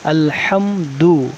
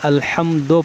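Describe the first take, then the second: First: The word ends with an 'u' vowel. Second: The word ends with an 'o' vowel. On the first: The speaker calls it right. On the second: The speaker calls it wrong.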